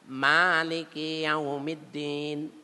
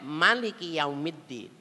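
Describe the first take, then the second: First: The first vowel of maliki is drawn out long. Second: The first vowel of maliki is said short.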